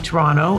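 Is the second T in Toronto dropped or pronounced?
dropped. The second T sound is dropped. The speaker is Canadian. "if you're Canadian, you say Toronto"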